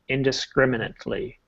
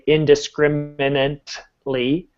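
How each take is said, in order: First: The word is said naturally with the T sounded. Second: The word is over-articulated with exaggerated consonants. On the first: The speaker calls it right. "the T is never silent" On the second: The speaker calls it wrong. "not that you need to say it this way"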